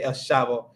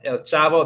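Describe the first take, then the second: First: Chavo begins with a soft sh sound. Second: Chavo begins with a hard ch sound. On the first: "they're gonna say" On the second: "instead of saying like"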